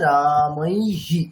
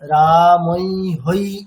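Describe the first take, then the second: First: The final sound is an echoed 'hi'. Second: The final sound is an echoed 'hai'. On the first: The speaker calls it right. "ওখানে কি হবে, ইকার" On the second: The speaker calls it wrong. "এইরকম হবে না, রামৈ হই এরকম"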